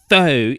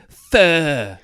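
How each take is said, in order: First: The word is said with an English vowel. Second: The word is said in a Vietnamese-style way. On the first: "it's not pho" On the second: "it's fur"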